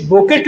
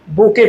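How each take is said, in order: First: बुकेट read as written, final T sounded; spelling pronunciation. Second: बुके with silent T, ending in "kay"; correct reading. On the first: Teacher shows students how it is written, spelling pronunciation. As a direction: close बुकेट on a clear T. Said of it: "सीधे सीधे बुकेट लिखा है". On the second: Teacher tells students how it is read, silent-T pronunciation. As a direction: say बुके open at the end, no T. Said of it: "पर इसे पढ़ते क्या हैं". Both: Shown as a demonstration.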